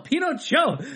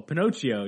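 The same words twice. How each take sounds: First: The name is pronounced the Spanish way. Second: The name is pronounced the English way. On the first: The speaker calls it right. "she's like, no" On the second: The speaker calls it wrong. "everyone was like, oh"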